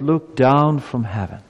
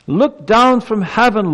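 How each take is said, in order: First: Said in the usual way. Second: Much higher, louder, slow, crying out to heaven; bold pleading prayer. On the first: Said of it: "Let's read that again". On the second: Acted. Preacher voicing the prophet's prayer to God, loud and slow. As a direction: plead with God at full force. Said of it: "Have you ever prayed like that?".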